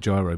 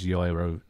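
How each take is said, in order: First: The name begins with a J sound. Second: The name begins with a Y sound. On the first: "not gyro" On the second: "the J in Ajax is a Y"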